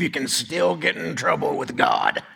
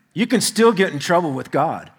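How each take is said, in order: First: Brent. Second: Said in the usual way. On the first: Retold or imitated. Cowboy friend on what Catholics believe, light cowboy impression. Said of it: "He talks like this".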